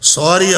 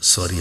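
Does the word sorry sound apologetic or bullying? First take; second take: bullying; apologetic. First: It is said in a bullying, arrogant tone. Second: It is said in a humble, apologetic tone. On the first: The speaker is not really sorry and is asserting dominance. The speaker calls it wrong. "આ સોરી છો કે દાદાગીરી છો?" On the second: The speaker sincerely regrets the mistake. The speaker calls it right. "Very सॉरी भूल थई गई"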